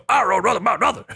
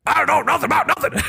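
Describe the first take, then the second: First: A lighter, higher retake of the bad cartoon voice; half-hearted squeaky villain; horrible Strong Bad impression. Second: Squeaky, rushed cartoon villain voice, much higher; a deliberately awful Strong Bad; horrible Strong Bad impression. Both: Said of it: "horrible strong bad impression".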